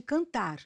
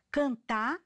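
First: "cantar" with the final r clearly sounded; full r. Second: "Cantar" with the final r dropped, canta. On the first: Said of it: "em vez de cantar". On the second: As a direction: clip the r off "Cantar". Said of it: "omitir fonemas". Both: Shown as a demonstration.

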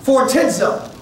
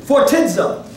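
First: Phortizo said again in Greek; Greek word repeated. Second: Phortizo said in Greek; Greek word. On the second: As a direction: sound out phortizo. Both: Shown as a demonstration. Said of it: "Heavy laden is the Greek word".

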